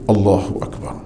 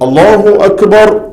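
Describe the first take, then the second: First: It is said quietly. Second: It is said loudly.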